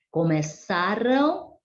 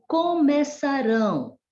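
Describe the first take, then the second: First: "Começaram" stressed on ÇA, tune rising; stress on penultimate syllable. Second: "começarão" high, stressed on final RÃO, falling; stress on last syllable. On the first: Teacher showing the past form, "Começaram" stressed on ÇA. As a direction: lean on ÇA in "Começaram", lift the light ending. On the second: Teacher showing the future form, "começarão" stressed on RÃO. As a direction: land firmly on RÃO in "começarão". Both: Shown as a demonstration. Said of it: "Olha só a diferença ali".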